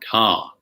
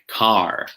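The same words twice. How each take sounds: First: The r is silent and the vowel is lengthened. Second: The r sound is clearly pronounced at the end. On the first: "we sort of elongate the vowel sound car" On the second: "Whereas in America, it would probably something sound something like car"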